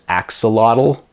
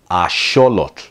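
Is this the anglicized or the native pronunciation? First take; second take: anglicized; native. First: The word is said with an anglicized pronunciation. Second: The word is said with the native pronunciation. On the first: The speaker calls it wrong. "A lot of people mispronounce it as axolotl" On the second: The speaker calls it right. "So once again, it's axolotl"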